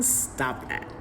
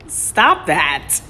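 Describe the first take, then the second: First: Hissed under the breath; whispered scolding. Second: Louder exasperated snap; loud annoyed scold. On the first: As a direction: shush them quietly. Scolding the teasing partner. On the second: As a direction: tell them off out loud. Scolding the teasing partner again. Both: Real, not acted.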